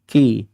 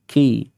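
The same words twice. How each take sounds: The two takes are said the same way.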